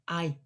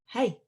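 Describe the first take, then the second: First: The word begins without an h sound. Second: The word begins with an h sound. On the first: The speaker calls it right. "We just say I" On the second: The speaker calls it wrong. "it looks like we should say it like, hey, but we don't say the sound at the beginning"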